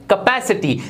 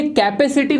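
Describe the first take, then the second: First: कैपेसिटी as "kuh-PASS-i-tee"; short neutral first vowel in कैपेसिटी; correct pronunciation. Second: कैपेसिटी opening on "kai", "KAI-pe-si-ti"; full "ai" vowel starting कैपेसिटी; wrong pronunciation. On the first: Teacher repeats for learners, कैपेसिटी said "kuh-PASS-i-tee". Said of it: "ये होता है". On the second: Teacher shows learners the mistake, कैपेसिटी said "kai-pe-si-ti". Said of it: "ये कैपेसिटी नहीं होता". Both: Shown as a demonstration.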